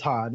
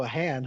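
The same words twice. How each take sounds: First: "Han" said with a flat short a, as in hand; correct pronunciation. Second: "Han" said with a broad ah vowel, like Hahn; Lando's mispronunciation. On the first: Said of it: "And he's like". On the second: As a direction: stretch "Han" into an open ah, the way Lando says it. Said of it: "and he's like". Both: Retold or imitated.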